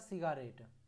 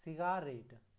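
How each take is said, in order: First: The second syllable is said with a full vowel. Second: The second syllable is said with a full vowel.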